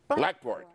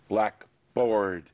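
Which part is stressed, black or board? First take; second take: black; board. First: The stress is on the first part, black. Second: The stress is on the second part, board. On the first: The specific classroom board, of any color. "there's only one stress, and it would come on the first syllable" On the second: "we would stress both parts, and we would stress the second part more heavily"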